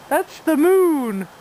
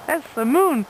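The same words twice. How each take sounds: First: Slow, louder, stretching out moon; drawn-out explanation. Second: Said in the usual way. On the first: Real, not acted. Owner telling her dog what he sees, slow and drawn out. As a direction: spell it out slowly for the dog.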